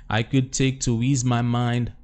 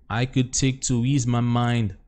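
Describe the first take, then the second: No difference in how they are said.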